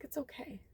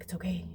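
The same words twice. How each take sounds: First: A high, much softer tearful it's okay; tearful whisper. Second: Soft, gentle it's okay; soft reassurance. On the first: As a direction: breathe it out near tears. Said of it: "And I was like". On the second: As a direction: comfort her quietly. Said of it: "and I was like". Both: Retold or imitated.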